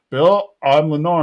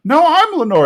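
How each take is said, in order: First: Matter-of-fact announcement, barely acted; restrained retold confession; Hank as Lenore. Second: High, loud insistence; hammed-up denial, high and forceful; protesting Bill. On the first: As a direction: state it evenly, close to your own voice. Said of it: "stops Bill and says". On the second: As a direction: protest it in a pitched-up voice. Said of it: "And he's like".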